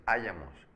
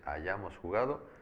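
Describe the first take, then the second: First: "hayamos" stressed on the first syllable, HA. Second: "hayamos" stressed on the middle syllable, YA. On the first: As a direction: punch the opening HA of "hayamos". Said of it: "no es hayamos". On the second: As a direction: land on YA in "hayamos". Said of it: "es hayamos jugado". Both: Shown as a demonstration.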